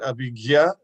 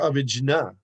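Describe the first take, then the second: First: The last syllable is said as 'gya'. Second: The last syllable is said as 'jna'. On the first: "you can pronounce it Abhigya" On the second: "or Abhijna"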